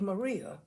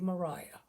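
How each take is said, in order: First: The name is said in a non-English way. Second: The name is said in the English way. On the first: The speaker calls it wrong. "this is not going to be Maria" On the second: The speaker calls it right. "that is the way the English pronounce that name"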